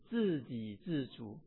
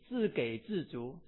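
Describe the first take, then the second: First: The second syllable is pronounced ji. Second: The second syllable is pronounced gei. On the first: The speaker calls it right. "正确的发音是自给自足" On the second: The speaker calls it wrong. "我会读自给自足，错啊"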